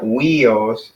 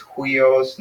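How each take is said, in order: First: "huios" without the H, as wee-os; missing rough breathing. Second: "huios" begun with a breathed H, hwee-os; rough breathing. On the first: Teacher showing the wrong way, no aspiration. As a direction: drop the H from "huios", starting on a w. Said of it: "it's not huios". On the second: Teacher showing the rough breathing mark, aspirated start. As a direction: slowly sound the H at the front of "huios". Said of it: "with the H in front". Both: Shown as a demonstration.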